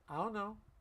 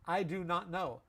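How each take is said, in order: First: The words are reduced and run together. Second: Each word is said fully and separately. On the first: "I'm going to say it a different way. It simply mashed together. It's called a reduction" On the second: "It doesn't sound fast. It's not fast"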